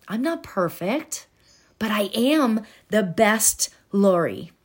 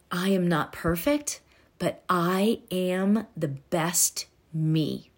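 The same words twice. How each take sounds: First: Said in the usual way. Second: Soft affirmation. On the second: Shown as a demonstration. Slow soft affirmation demo.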